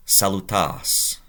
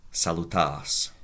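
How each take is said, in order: First: Salutas drawn out slowly for the class; slow and deliberate; slow quiz word. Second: Said in the usual way. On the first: Shown as a demonstration. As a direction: pose salutas as a question to translate. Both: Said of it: "You to one person".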